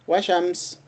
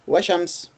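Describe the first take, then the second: The two takes are said the same way.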